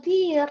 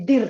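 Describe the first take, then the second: First: Drawn-out, falling "dear"; early-days endearment. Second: Short "dear" with a rising end; endearment gone curt. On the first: Couple in their early days, slow affectionate "dear". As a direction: say "dear" long and lovingly. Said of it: "Dulu awal-awal dear". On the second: Long-married couple, "dear" turned short and curt. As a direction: snap out "dear" with no tenderness. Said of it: "lama-lama jadi dear". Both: Retold or imitated.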